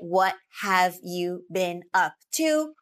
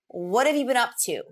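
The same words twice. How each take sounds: First: Each word is said fully and separately. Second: The words are reduced and run together. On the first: The speaker calls it wrong. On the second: The speaker calls it right.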